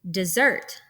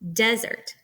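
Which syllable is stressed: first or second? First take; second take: second; first. First: The stress is on the second syllable. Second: The stress is on the first syllable. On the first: "We put the stress on the second part of the word" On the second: "This is where the stressed uh, syllable comes first"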